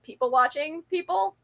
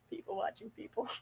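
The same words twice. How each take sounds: First: Said in the usual way. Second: Breathy hushed whisper of the phrase. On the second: Shown as a demonstration. Repeating her phrase to herself in a whisper. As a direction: whisper it like a secret joke.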